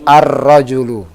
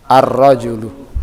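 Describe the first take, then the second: Both takes have the same delivery.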